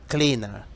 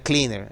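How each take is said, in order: First: It is said with a British accent. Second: It is said with an American accent. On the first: "en británico sería más o menos" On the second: "En americano sería"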